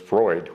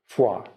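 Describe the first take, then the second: First: It is said with an English pronunciation, like 'froyd'. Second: It is said with a French pronunciation, like 'frwa'. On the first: This is how local people name the town. "So it's Freud. We're going to call it Freud" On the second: This is the original French word for cold. "It's a French word for cold"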